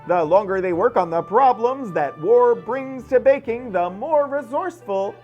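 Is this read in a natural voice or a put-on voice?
put-on. It is read in an imitated, put-on voice. It imitates a particular person's way of speaking. "this is definitely not Kate Smith's voice"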